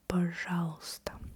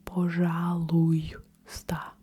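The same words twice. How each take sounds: First: The й sound after у is dropped. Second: The й sound after у is clearly pronounced. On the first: The speaker calls it right. "We don't really pronounce the и краткое" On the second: The speaker calls it wrong. "I don't say пожалуйста"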